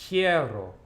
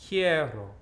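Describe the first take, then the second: Both takes have the same delivery.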